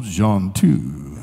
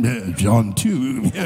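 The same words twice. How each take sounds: First: Low, slow John two with a rise; drawn-out preacher intoning. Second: Low, slow, drawn-out John too; drawn-out preacher intoning. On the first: Preacher recalling the verse he wanted to say, low intoning. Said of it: "if I could just go". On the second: Rider thinking of his favorite verse, slow low intoning. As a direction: stretch it out like a solemn sermon line. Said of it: "I'm thinking". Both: Retold or imitated.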